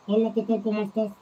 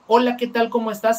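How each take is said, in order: First: It sounds muffled, with only low sounds. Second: It sounds clear, with normal high sounds.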